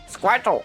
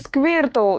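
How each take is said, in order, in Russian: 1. Название произносится с английским произношением. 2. Название произносится с русским произношением. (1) "Если смотреть по-английски, то в оригинале а, он говорит что-то типа Сквиртл" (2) "это по-русски Сквиртл"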